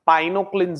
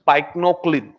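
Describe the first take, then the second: First: No k sound is heard before the n. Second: A k sound is heard before the n. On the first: The speaker calls it right. "సి silent వాస్తవంగా అయితే" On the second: The speaker calls it wrong. "జనరల్ మనం pronunciation పైక్నోక్లిన్"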